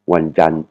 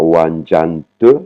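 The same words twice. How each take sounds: First: Wanjan cut off just before the "te"; unreleased final T. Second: Wanjan te, with the T fully voiced out as "te"; final T released. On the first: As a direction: shape a T at the end of Wanjan without releasing it. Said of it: "vous vous arrêtez juste avant de dire le te". (Wanjan, arrêté juste avant de dire le « te ») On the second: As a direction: sound out an extra syllable "te" after Wanjan. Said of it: "il faut faire comme si vous allez dire". (Wanjan te, le T final prononcé « te ») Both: Shown as a demonstration.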